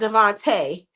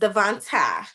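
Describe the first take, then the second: First: The name does not end in an uh sound. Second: The name ends in an uh sound. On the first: The speaker calls it wrong. "it's not Devontae" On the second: The speaker calls it right. "add the uh in there"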